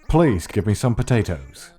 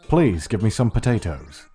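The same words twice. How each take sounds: Both takes have the same delivery.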